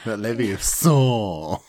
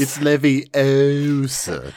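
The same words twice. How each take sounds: First: "Leviosa" as levio-SAR, slowly; "Leviosa" with a long final SAR, falling; stress on final syllable. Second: "Leviosa" as levi-OH-sa, slowly drawn out; "Leviosa" with a long, stressed OH. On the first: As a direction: drag out the end of "Leviosa". Quotes the wrong pronunciation. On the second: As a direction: stretch the O in "Leviosa". Quotes film's pronunciation correction. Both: Acted.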